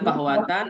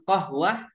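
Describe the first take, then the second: First: The word ends with a full -atan ending. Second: The word is cut short, ending in -ah. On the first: "Boleh bilang qahwatan" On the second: "boleh juga mau diwakafkan qahwah"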